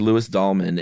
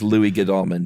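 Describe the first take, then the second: First: The surname begins without any G sound. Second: The surname begins with a sounded G. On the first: "silent G on the front" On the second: "for all I know, it is Louis Godalming"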